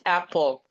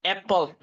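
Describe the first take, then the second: First: "apple" with an open A, as in "cat". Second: "apple" said as "epple", with an E vowel; wrong E-like vowel. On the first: Teacher correcting learners, "apple" with an open A sound. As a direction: open up the first vowel of "apple". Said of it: "is not apple, it's apple". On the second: Teacher showing learners the mistake, "apple" with an E vowel. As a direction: open "apple" with the E of "bed". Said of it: "is not apple". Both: Shown as a demonstration.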